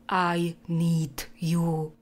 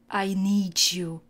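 First: The d and y are said as separate sounds. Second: The d and y blend into a soft j-like sound. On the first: "místo" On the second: "tyhle dvě souhlásky se spojí a ta tvrdá se změkčí"

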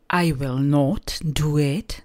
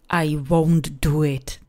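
First: Will not is said as two full words. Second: Will not is shortened to one syllable. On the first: It is the more formal way to say it. "To je takový ten formálnější, spisovnější způsob" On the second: It is the more colloquial way to say it. "a ten hovorovější"

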